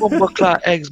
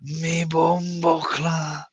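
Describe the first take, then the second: First: Quick mock Jamaican quote, a bit higher; imitating the video's Jamaican line; Jamaican accent. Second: Slow, drawn-out mock Jamaican accent; lazy Jamaican accent, dragged slowly. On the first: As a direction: toss off the clip's catchphrase in a Jamaican lilt. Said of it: "That was hilarious". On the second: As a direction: stretch it out in a playful Jamaican accent. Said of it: "if I had a Jamaican accent".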